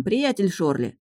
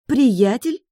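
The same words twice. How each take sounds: First: Said in the usual way. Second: Higher, louder incredulous rise; can't believe the rat is a friend; strangled question. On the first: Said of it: "Эрик поморщился". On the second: Acted. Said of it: "сдавленно спросила я". (сдавленно, с недоверием, выше)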